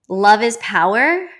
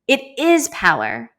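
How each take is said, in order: First: "love is power." said slowly, "power" loud with a rising lift; stress on power. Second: "It is power." with "is" pitched high and falling; stress on is. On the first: Repeating the stranger's saying, stress on power. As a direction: lean into "power". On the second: Affirming the saying to viewers, stress on is. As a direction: hit the word "is" hard, insisting. Repeating the stranger's words. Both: Real, not acted.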